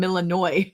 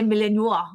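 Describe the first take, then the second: First: "Illinois" said with a hard "NOY" ending; mispronunciation. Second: "Malinois" ending in a French "wah"; French pronunciation. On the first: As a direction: rhyme the end of "Illinois" with boy. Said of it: "I was calling him Illinois". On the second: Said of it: "then I will say Malinois". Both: Retold or imitated.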